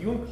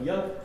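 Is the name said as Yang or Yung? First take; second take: Yung; Yang. First: The name is said as Yung, ending in g. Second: The name is said as Yang, in English fashion. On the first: This is the usual Russian rendering of the name. The speaker calls it wrong. "на русский обычно всегда транскрибируют как Юнг" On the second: This is how the English name is really pronounced. The speaker calls it right. "он англичанин, поэтому произносится он, конечно, как Ян"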